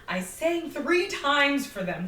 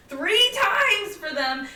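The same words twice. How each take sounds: First: Slow, weighted on three; stressed three. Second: Much higher, louder, very slow on times; emphatic repeat. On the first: Server stressing how often she sang, slowly. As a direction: lean on three times. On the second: Server repeating her grievance, higher, louder and slow. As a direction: hammer three times home. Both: Real, not acted. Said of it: "emphasising effort".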